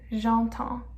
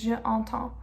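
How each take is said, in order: First: Je merges into entends, dropping its vowel. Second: Je and entends are said as separate words. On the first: The speaker calls it right. "So we do j'entends" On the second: The speaker calls it wrong. "it would be too redundant if it's je entends"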